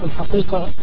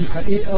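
First: The q sound is a deep uvular stop. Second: The q sound is replaced by a glottal stop. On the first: This is the classical form of the word. The speaker calls it right. "بدل ما أقول الحقيقة" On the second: This is the local dialect form of the word. The speaker calls it wrong. "القاف تحولت لآء"

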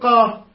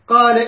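First: The syllable is pronounced heavy, with a thick vowel. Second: The syllable is pronounced light, with a thin vowel. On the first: The speaker calls it right. "فخم الألف" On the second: The speaker calls it wrong. "هاي الترقيق"

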